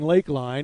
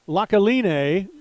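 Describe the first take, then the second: First: It is said plainly as the two-word 'Lakeline'. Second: It is said like the three-syllable 'La Colina'. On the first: The speaker calls it right. "meaning lake line" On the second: The speaker calls it wrong. "they thought it was a Hawaiian word or something"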